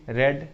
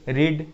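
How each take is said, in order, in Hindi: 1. स्वर की आवाज़ छोटी 'e' है। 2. स्वर की आवाज़ लंबी 'ee' है।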